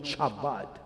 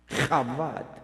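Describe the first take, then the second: First: It begins with a ch sound as in church. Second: It begins with a throaty, rasping h sound. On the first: The speaker calls it wrong. "no Chabad" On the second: The speaker calls it right. "C H es alemán y se pronuncia Chabad"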